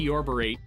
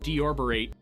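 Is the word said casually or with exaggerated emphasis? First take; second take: exaggerated; exaggerated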